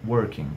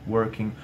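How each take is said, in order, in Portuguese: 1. A terminação é um som 'ng' suave, feito com a parte de trás da língua. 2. A terminação é um som 'ng' suave, feito com a parte de trás da língua.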